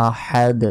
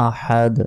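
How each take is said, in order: No difference in how they are said.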